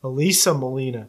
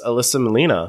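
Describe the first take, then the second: First: "Elisa Molina" with Elisa said with a long ee; "Elisa" with a clear LEE in the middle; corrected name pronunciation. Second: "Alyssa Molina" with Alyssa said the common English way; "Alyssa" with a short second vowel; mispronounced name. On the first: Shown as a demonstration. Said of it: "we said it wrong". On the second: Real, not acted. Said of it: "Oh, we said it wrong".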